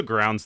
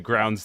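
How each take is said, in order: First: "grounds" said as crounds, with a hard k; "grounds" started with a k sound instead of g; slip of the tongue. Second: "grounds" said carefully with a clear g; "grounds" fixed, voiced g at the start; corrected pronunciation. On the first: Real, not acted. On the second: Shown as a demonstration. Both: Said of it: "Grounds, L O L".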